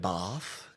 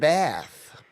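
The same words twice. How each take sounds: First: It is said in a South Australian accent. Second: It is said in an American accent. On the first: "here in uh, South Australia, uh, we say bath" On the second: "according to Sesame Street"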